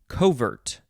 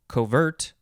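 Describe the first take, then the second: First: The stress is on the first syllable. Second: The stress is on the second syllable.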